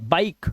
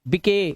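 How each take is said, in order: First: The word ends on the consonant, no final vowel. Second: The final e is sounded as an extra vowel. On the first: The speaker calls it right. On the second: The speaker calls it wrong.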